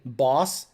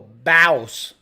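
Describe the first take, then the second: First: The vowel is a plain short 'o'. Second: The vowel is drawn out like 'bauss'. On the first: The speaker calls it wrong. "You don't say boss" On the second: The speaker calls it right. "You go boss. B A U S"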